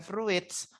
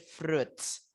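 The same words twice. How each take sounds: First: An extra i vowel is pronounced after the r. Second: No extra i vowel is pronounced after the r. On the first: The speaker calls it wrong. "i-nya nggak usah dibaca ya. Jadinya bukan fruits" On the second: The speaker calls it right. "tapi fruits"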